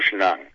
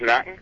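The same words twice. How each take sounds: First: The word is pronounced broadly and drawn out. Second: The word is pronounced plainly, not drawn out. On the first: This is how the local people say it. "wir sagen Schnacken ... Also wir sagen Breite" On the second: This is how people in the city say it. "Die sagen Schnacken"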